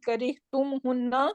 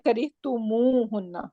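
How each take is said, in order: First: Tum runs straight into hunna with no added vowel. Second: An extra u vowel follows tum before hunna. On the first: The speaker calls it wrong. "instead of saying kari tum hunna" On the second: The speaker calls it right. "for the fluency purpose"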